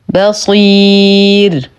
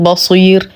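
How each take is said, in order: First: The b sound is light and thin. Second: The b sound is heavy and thick. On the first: The speaker calls it right. "نرقق الباء" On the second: The speaker calls it wrong. "فلا نقول بصير وهذا خطأ"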